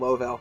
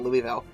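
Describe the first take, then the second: First: The first syllable sounds like 'Low'. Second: The first syllable sounds like 'Lou-ee'. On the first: This is how local people say it. The speaker calls it right. "technically the local is called" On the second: This is how outsiders say it. The speaker calls it wrong.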